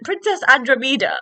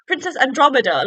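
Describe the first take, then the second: First: Andromeda said wrongly as an-druh-MEE-duh; mispronounced Andromeda. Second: Andromeda said as an-DROM-uh-duh; correct Andromeda. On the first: Podcaster owning up to a slip, Andromeda mispronounced with "MEE". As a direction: stress a long "mee" in Andromeda. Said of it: "that's not even how you're supposed to say it". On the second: Podcaster correcting herself to listeners, Andromeda with stressed "DROM". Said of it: "how you're supposed to say it". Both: Shown as a demonstration.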